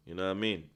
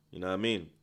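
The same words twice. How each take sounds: The two takes are said the same way.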